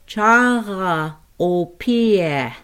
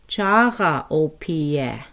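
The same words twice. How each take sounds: First: "Chara opie" slowed, guttural r in "Chara"; slow careful Lakota. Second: Said in the usual way. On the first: Shown as a demonstration. Teacher modelling a word for learners, slow. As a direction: stretch "Chara opie" with a throaty r. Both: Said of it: "I'd like to pronounce refrigerator".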